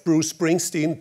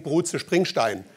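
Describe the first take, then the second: First: Said in the usual way. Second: "Bruce Springsteen" with German sh sounds and an "-stein" ending; mock German pronunciation. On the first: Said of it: "if we would say instead of". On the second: Shown as a demonstration. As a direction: slowly read "Bruce Springsteen" as if it were German. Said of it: "sounds for us Germans like for you Americans".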